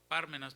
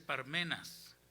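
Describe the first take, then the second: First: The stress falls on the first syllable. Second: The stress falls on a later syllable. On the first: The speaker calls it wrong. "Yo pronunciaba Pármenas, pero no es Pármenas" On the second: The speaker calls it right. "no tiene el acento en la Biblia, dice Parmenas"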